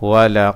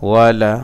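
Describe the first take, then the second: The two takes are said the same way.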